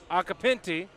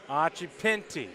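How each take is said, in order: First: The surname is said quickly at normal speed. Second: The surname is said slowly and carefully. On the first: The speaker calls it wrong. "I think I still screwed that up" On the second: The speaker calls it right. "I'm gonna read this slowly"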